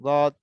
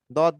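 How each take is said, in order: First: "দদ" from the side edge of the tongue; side-of-tongue articulation. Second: "দদ" said from the tongue tip, like a "দাল"; front-of-tongue error. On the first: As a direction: say "দদ" with tongue edge against upper molars. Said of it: "পাশ". (জিহ্বার পাশ থেকে "দদ" উচ্চারণ) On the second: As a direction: mispronounce "দদ" at the front of the mouth. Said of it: "এটা সামনে থেকে ভুল হবে". (জিহ্বার আগা থেকে "দদ", দালের মতো ভুল উচ্চারণ) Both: Shown as a demonstration.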